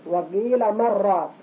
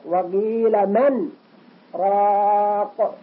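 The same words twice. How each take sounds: First: The n merges into the r without a break. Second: The voice stops briefly before the r, without breathing. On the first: "نون ساكنة بعدها راء إبغام بلا غنة" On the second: "ولكن في السكت نقول هكذا"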